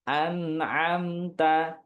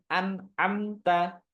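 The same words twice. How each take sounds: First: The n flows with a slight nasal hum. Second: The n is cut off abruptly and choppily. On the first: The speaker calls it right. "Tapi ada alirannya sedikit" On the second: The speaker calls it wrong. "Nggak boleh an'amta. Nggak boleh terpatah-patah"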